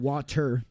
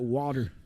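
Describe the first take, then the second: First: The middle consonant is not said like a d. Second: The middle consonant is said like a d. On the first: "Not water" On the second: "We say it like a D"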